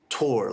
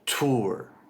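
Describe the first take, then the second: First: The vowel is an or sound. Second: The vowel is an oo sound. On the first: "like the word tour, past tense of tear" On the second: "pronounce it as tour with an oo sound"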